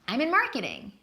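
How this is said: It is said with positive, upbeat feeling. She enjoys her job. "responds positively, like in the first example"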